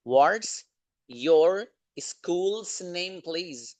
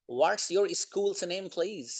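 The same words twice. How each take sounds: First: Very slow, with pauses between chunks; word-by-word repeat. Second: Said in the usual way. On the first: Shown as a demonstration. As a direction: break the sentence up for learners. Repeats it broken up for learners.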